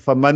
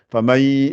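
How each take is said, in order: First: The n sound is clearly pronounced. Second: The n is dropped and the y doubled. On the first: The speaker calls it wrong. "on va pas dire faman" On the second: The speaker calls it right. "Le ya est doublé. Et on fait disparaître le nun"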